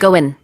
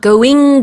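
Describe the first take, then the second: First: The word ends with a short 'in' sound. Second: The word ends with a full 'ing' sound. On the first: "we just want to say in instead of the ing sound" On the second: "going 대신에"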